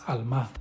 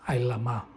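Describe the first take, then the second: First: The word is said as 'alma'. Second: The word is said as 'ailama'. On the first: The speaker calls it wrong. "pero así es como ellos lo pronuncian" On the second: The speaker calls it right. "la pronunciación correcta es Ailama"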